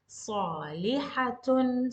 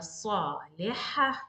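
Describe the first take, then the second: First: The word ends in a t with -un. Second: The word ends in a soft h sound. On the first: The reading continues after it. "if I need to continue, I will continue as salihatun" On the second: The sentence ends here. "When I'm stopping, I'm stopping as ha"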